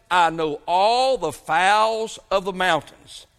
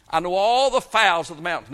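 First: Drawn out, slow, weighty words of God; slow it right down and let it ring; slow solemn quote. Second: Said in the usual way. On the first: Acted. Preacher reading God's word to the congregation, slow and solemn.

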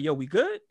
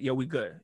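First: GOOD rising as a question; retold "we good?" ending upward; questioning check. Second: GOOD falling as a statement; settled answer. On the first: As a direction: ask it, lifting the pitch on "good". Retold check answered by same words. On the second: Retold or imitated. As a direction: answer it, dropping the pitch on "good". Retold answer to the same question.

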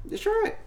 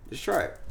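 First: Squeaky high pleading repeat. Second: Said in the usual way. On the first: Real, not acted. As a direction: beg him in a high voice. Urging again, pitched up.

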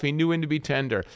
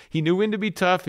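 First: Quicker, eased-back delivery; understated second half of a contrast; tender. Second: Higher, firm emphasis; emphatic first half of a contrast; tough. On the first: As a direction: relax into a mild tenderness. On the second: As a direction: drive up the word tough. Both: Shown as a demonstration.

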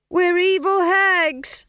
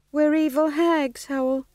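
First: Chanted, high, loud, drawn-out chorus; chanted, shout it slowly all together; louder chant. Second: Timid chant. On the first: Witches obeying stage manager, loudly chanted. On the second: Nervous witches answering stage manager, timidly chanted. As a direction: chant it without conviction. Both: A narrator's reading.

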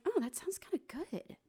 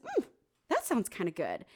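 First: High, bright sudden interest; a quick, delighted high "Oh"; perked-up interest. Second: Level, musing second thought; weighing it up, settled and unhurried; thoughtful consideration. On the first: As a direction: perk right up at the idea. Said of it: "and I was like". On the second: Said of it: "And I was like". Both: Retold or imitated.

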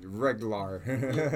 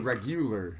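First: "regular" squashed to a slow "reg-LAR"; exaggerated mispronunciation. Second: "regular" with a full "reg-YOO-ler"; over-enunciated pronunciation. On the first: Vocalist playing along with the teasing, "regular" as a drawn-out "reg-lar". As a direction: draw out "regular" as two syllables, ending on "lar". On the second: Vocalist teased on his pronunciation, "regular" over-enunciated. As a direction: sound out "regular" carefully as three syllables, reg-yoo-ler. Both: Shown as a demonstration. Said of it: "making fun of how you said regular".

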